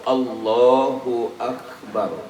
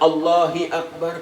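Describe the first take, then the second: First: The first word ends with a u sound. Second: The first word ends with an i sound. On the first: The speaker calls it right. "Takbiratul ihram itu Allahu Akbar" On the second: The speaker calls it wrong. "tidak bisa juga"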